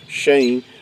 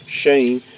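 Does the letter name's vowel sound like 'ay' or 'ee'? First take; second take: ay; ay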